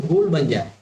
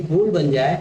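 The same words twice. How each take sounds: The two takes are said the same way.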